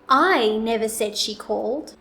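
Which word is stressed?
I. The word "I" is louder, longer and higher. Someone else said she called. "I will place the emphasis on the word I"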